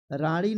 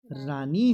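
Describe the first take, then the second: First: रानी with retroflex sound, "raaṇi"; wrong pronunciation. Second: रानी with a plain dental n; tongue-tip n in रानी; रानी as clean "raanee"; correct pronunciation. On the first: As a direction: curl the tongue back in रानी. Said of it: "रानी नहीं होता है". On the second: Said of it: "रानी होता है सही". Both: Shown as a demonstration.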